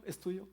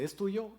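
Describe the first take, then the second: First: Pregunta infantil, aguda, con acento en "Es"; voz de niña pequeña. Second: Pregunta infantil, más aguda, con acento en "tuyo"; voz de niña pequeña. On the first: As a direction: repitiendo como niña insistente. (la nieta insiste ante el abuelo, voz infantil) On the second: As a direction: imitando a una nieta chiquita que pide algo. (la nieta pregunta al abuelo, voz infantil aguda) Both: Retold or imitated. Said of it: "Me dice".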